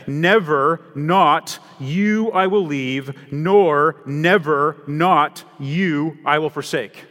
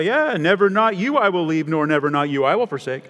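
First: Each word weighed out slowly, louder; slow emphatic literal reading. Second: Mock stumbling reader. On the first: Shown as a demonstration. Preacher showing the congregation the literal Greek, slow and emphatic. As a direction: spell out the piled-up negatives slowly and firmly. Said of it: "You could literally translate that". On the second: Preacher imitating a reader stumbling over a literal Bible, mock puzzled. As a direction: read it like someone tripping over an awkward translation. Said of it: "you stop and go, "Uh, that's awkward".

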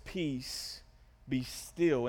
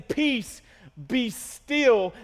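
First: Low, soft, measured words; calm command. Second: Raised, forceful command. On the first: Jesus rebuking wind and waves, quiet calm command. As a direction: still the storm gently, with pauses. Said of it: "It says that he rebukes the wind and the waves". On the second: Preacher repeating Jesus's words to the storm, forceful command. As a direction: punch out each phrase with a pause between. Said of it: "after Jesus is saying". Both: Acted.

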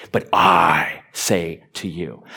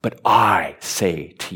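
First: Slow, with "I" in "But I say to you" set apart and weighty; firm "I" in "But I say to you"; stress on I. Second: Slow, with "I" in "but I say to you" hit hard; emphatic "I" in "but I say to you"; stress on I. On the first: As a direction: say "I" like it carries all the authority. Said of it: "You have to say it like that". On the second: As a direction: punch the "I" like bold type. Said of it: "I in boldface". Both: Shown as a demonstration.

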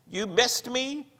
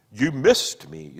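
First: High, thin, slow croaking voice; small bleating croak. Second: Slow, trembling tragic delivery; theatrical tremor. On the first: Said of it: "he croaked in a small, bleating voice". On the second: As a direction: throw a dreadful tremor into it. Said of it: "throwing a dreadful theatrical tremor into his voice". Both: Acted.

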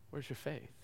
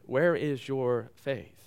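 First: The question again, far softer; quiet echo. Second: Said in the usual way. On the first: Shown as a demonstration. Preacher repeating the question softly to the congregation, hushed. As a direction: drop almost to a hush and repeat it.

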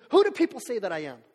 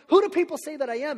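First: Said in the usual way. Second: Higher, louder, rising Who question; emphatic repeat. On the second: Acted. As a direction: lift the whole question up, ending on a rise.

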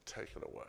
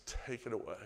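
First: Voiceless whisper of "Take it away."; whispered command. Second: Said in the usual way. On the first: Retold or imitated. Jesus telling them to move the stone, in a whisper. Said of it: "and Jesus saying". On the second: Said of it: "And he says".

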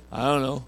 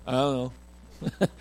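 First: Said in the usual way. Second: "I don't know" slurred into one slow syllable; lazy teenage "I don't know" run together as one sound; teen mumble. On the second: Shown as a demonstration. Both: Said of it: "teenagers can say four words in one syllable".

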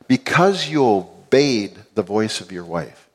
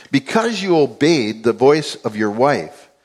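First: Slow, with weight on "obeyed"; stress on obeyed. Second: Slow, deliberate, "obeyed" stressed; slow emphasis. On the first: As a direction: lean slowly on "obeyed". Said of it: "that word listen ... interpreted to mean obey". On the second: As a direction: draw it out, leaning on "obeyed". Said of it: "interpreted to mean obey". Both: Shown as a demonstration.

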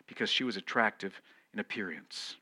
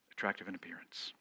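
First: Said in the usual way. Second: Whispered repeat. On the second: Shown as a demonstration. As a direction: whisper "Attractive in appearance" quietly and quickly.

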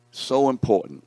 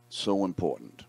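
First: "so important" called out higher and much louder, hitting "so"; emphatic. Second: Said in the usual way. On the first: Shown as a demonstration. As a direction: proclaim "so important" with a big push on "so".

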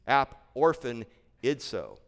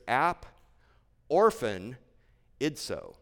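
First: Said in the usual way. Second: "ap", "orphan", "idso" said as separate pieces with pauses; split into syllables. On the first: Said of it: "I won't pronounce it the whole way". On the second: Shown as a demonstration. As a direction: break the word into "ap" "orphan" "idso", pausing between. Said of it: "pronounce it in some different syllables".

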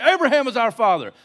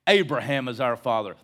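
First: High, loud protest; indignant outburst. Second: Said in the usual way. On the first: Retold or imitated. Offended crowd answering Jesus back, indignant outburst. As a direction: rise up and pop it out loudly. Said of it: "They rise up".

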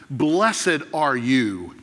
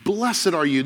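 First: "Blessed" drawn out, very slow and weighty; slow solemn blessing. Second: Said in the usual way. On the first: Acted. Jesus commending Peter, slow and solemn. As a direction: let "Blessed are you" unfold slowly.

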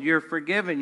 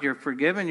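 First: "You're" stressed, falling through "forgiven". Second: "forgiven" stressed with a rising end. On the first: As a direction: hit "You're" and let it fall. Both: Shown as a demonstration.

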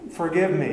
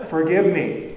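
First: Mock quiet plea. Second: Louder repeat. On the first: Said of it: "wake up your spouse and say". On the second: Acted.

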